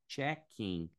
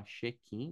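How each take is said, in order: First: Check-in with a crisp ch start, "chek-in"; English check-in. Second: Check-in with a soft sh start, said "sheck-ee"; Brazilian check-in. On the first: Teacher shows students the English check-in, with a ch sound. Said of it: "mas em inglês é check-in". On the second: Teacher shows students the Brazilian check-in, with a sh sound. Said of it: "a gente fala check-in". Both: Shown as a demonstration.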